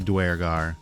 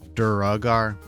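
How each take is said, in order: First: The word has two syllables, beginning 'dwer'. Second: The word has three syllables, beginning 'dur'. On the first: The speaker calls it right. "I say Dwergar" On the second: The speaker calls it wrong. "I don't like Duragar. Where's the Ugar come from?"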